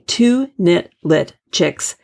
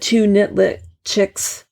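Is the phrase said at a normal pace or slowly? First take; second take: slowly; normal. First: The phrase is said slowly and carefully. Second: The phrase is said at a normal pace.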